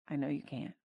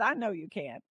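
First: Softer, tender repeat; a gentle God softly soothing the weary believer; soft reply. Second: Said in the usual way. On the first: Acted. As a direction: let it fall softer and gentler.

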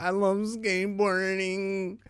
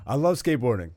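First: "I love skateboarding" said high and slow as the voice cracks; voice cracking. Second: Said in the usual way. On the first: Real, not acted. Host's voice cracking while he gushes about skateboarding. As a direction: let the voice crack up high, slowly. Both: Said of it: "why my voice just cracked".

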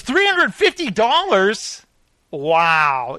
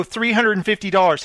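First: Mock disbelief. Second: Said in the usual way. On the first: Cheap boss hearing the bee quote, mock disbelief. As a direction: repeat the price as if outrageous. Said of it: "He goes". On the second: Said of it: "And they go".

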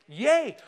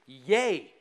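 First: Higher, louder yay; bright-pitched, emphatic hooray; livelier cheer. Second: Low, underplayed cheer; a cheer that stays low in pitch; subdued yay. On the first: Acted. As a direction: lift it into a real cheer. Second, livelier cheer to congregation. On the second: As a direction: give a half-hearted little yay. First, subdued cheer to congregation.

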